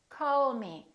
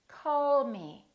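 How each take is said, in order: Both takes have the same delivery.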